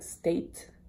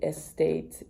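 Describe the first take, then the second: First: The word starts directly with the S sound. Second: A short E sound comes before the S. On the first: "reading the word like state" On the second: "they insert an E sound, a short E sound"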